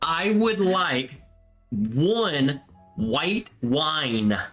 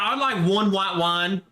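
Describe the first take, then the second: First: It is said with a careful, neutral accent. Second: It is said in a natural regional accent. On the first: The speaker worried about being understood. "when you would order" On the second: This is how the speaker normally talks. "Instead of"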